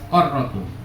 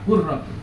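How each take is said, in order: First: The first vowel is an a sound. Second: The first vowel is a u sound. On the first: "Ada yang baca fathah" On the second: "ada yang baca doma"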